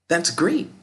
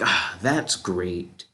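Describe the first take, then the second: First: It is said with enthusiasm. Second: It is said with sarcasm.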